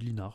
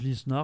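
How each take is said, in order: First: The s in the name is silent. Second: The s in the name is pronounced. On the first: This is how the speaker personally says it. "moi je dis Linard" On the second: This is how most people say it. "Les gens disent Lisnard"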